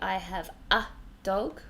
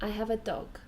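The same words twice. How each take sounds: First: The article 'a' is stressed and full. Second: The article 'a' is unstressed and reduced. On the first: The speaker calls it wrong. "We don't say" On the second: The speaker calls it right. "We say"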